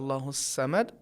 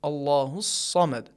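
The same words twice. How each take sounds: First: The s sound is light and thin. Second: The s sound is heavy and deep. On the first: The speaker calls it wrong. "सीन के तरीके से नाजुक आवाज़ से पढ़ेंगे ... ये सही नहीं है" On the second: The speaker calls it right. "अरबी में हरफ साद का तलफ़ुज़ भारी आवाज़ के साथ होता है"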